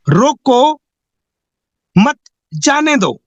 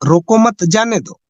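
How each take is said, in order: First: रोको set apart by a long pause, then मत जाने दो; pause after रोको. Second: रोको मत run together, then जाने दो; comma after मत. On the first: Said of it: "coma लगाने से". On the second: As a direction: join मत to रोको with no pause between, then say जाने दो. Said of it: "केवल एक कोमा लगाने से". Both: Shown as a demonstration.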